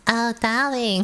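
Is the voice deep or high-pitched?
high-pitched. It is said in a high-pitched, cutesy voice.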